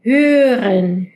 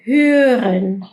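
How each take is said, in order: First: German hören. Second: "hören" said evenly, r barely there; German hören; German hören again. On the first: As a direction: say "hören" like hyren. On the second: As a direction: repeat "hören" plainly. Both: Shown as a demonstration. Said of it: "la palabra".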